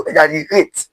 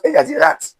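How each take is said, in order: First: Exaggerate, last A said as its letter name "ay"; correct exaggerate. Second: Exaggerate, last A cut short as in "rat"; wrong exaggerate. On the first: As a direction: exaggerate with the final syllable said "rate", long A like the letter name. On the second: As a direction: exaggerate with the final syllable said "rat", short flat A. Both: Shown as a demonstration. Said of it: "not exaggerate".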